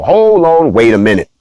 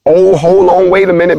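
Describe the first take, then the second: First: Catchphrase with a lift on "Hold"; hold on wait a minute. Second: "hold on, wait a minute" raised high and louder, startled; jolted, catching something odd; playful cue for the buzzer, said in mock surprise; mock surprised. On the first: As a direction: show title called out with a lift on "Hold". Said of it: "The name of the show is Hold On, Wait a Minute". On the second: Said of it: "when I get to the". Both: Shown as a demonstration.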